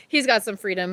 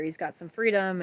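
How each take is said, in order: First: Laughing through tears. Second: Tearing up. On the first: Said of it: "I'm gonna cry". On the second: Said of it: "look at me, I'm gonna cry". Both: Real, not acted.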